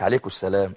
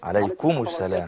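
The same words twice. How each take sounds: First: The m sound is weakened and not clearly pronounced. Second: The m sound is pronounced clearly and distinctly. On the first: The speaker calls it wrong. "مش" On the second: The speaker calls it right. "يظهر الميم لو سمحت"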